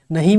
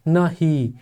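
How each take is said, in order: First: Said in the usual way. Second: नहीं as two beats, ना then ही; split into syllables. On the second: Shown as a demonstration. Teacher showing two syllables in नहीं, split into syllables. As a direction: open out न and separate it from ही. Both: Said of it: "नहीं में भी दो syllable है".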